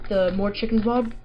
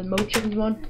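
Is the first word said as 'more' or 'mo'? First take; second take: more; mo. First: The first word is said as 'more' with an R sound. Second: The first word is said as 'mo' with no R sound.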